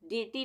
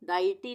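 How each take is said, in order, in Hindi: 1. पहला स्वर ee जैसी ध्वनि है। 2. पहला स्वर eye जैसी ध्वनि है। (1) "डीटी नहीं बोलेंगे इसको" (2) "डाइटी नहीं बोलेंगे इसको"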